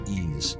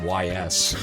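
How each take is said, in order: First: The name sounds like the word 'ease'. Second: The name is spelled out as two letters. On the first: The speaker calls it right. "it's actually ease" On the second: The speaker calls it wrong. "I also called it Y S"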